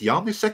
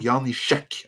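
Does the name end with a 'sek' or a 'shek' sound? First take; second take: sek; shek. First: The last syllable has a plain s sound. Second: The last syllable has an sh sound. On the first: The speaker calls it wrong. "sorry for saying it wrong" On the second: The speaker calls it right. "I think it's the Shek at the end"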